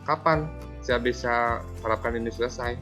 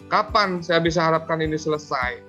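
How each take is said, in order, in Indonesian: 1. Nadanya santai dan ramah. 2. Nadanya keras dan menuduh. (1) "eh sebagai teman" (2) "di sini apanya penghukum, ... Itu penghukum"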